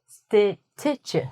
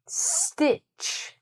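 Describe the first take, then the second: First: A separate T sound is heard before ch. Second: No separate T sound is heard before ch. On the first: The speaker calls it wrong. "We don't say stitch" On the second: The speaker calls it right. "No T"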